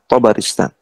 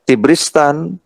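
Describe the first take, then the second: First: Four syllables, starting with an a vowel. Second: Three syllables, starting with an i vowel. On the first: The speaker calls it right. "to-nya di fathah, ba-nya di fathah, ro-nya di kasrah" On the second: The speaker calls it wrong. "ini bisa dibaca Tibristan"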